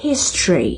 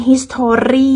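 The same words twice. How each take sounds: First: "history" as HIS-tree, falling; "history" with the middle O dropped; English history. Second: "history" as his-to-REE; "history" with a stressed, lifted final REE; Thai-style history. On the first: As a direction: say "history" in two syllables. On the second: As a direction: say "history" slowly in three full syllables. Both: Shown as a demonstration. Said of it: "บ่แม่น history เด้".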